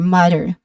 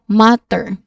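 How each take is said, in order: First: The middle consonant sounds like a soft D. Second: The middle consonant is a clear T. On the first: "in American English there's just a hint of a, l- a sound, a letter D sound here" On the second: "unlike in British English, which has a clear T sound"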